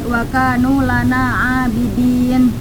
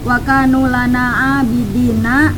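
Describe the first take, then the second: First: The last word ends on a consonant. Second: The last word ends with an open vowel. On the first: The reading stops at the end of the verse. "menjadi ... Untuk panjangnya itu dua setengah harokat" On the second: The reading continues without stopping. "yang tadinya"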